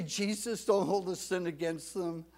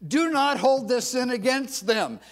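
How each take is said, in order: First: Said in the usual way. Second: High, loud, forceful prayer. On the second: Shown as a demonstration. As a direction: call it out loudly as instructed. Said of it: "say it to yourself in a loud voice".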